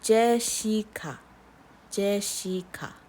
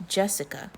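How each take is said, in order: First: Jessica as slow je-shi-ka; three Korean syllables. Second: Said in the usual way. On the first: Shown as a demonstration. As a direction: say Jessica block by block, shi in the middle. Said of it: "Three syllables". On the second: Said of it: "Then we have Jessica".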